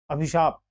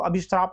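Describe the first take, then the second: First: अभिशाप with plain "shaap" ending; no r after श in अभिशाप; अभिशाप said as abhi-SHAAP; correct, without r. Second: अभिश्राप with "shraap" ending; अभिश्राप said as abhi-SHRAAP; wrong extra r. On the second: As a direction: slip an r after श in अभिश्राप. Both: Shown as a demonstration. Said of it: "अभिश्राप नहीं सुना".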